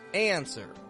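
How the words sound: The A glides toward a y before the N. "in the American accent"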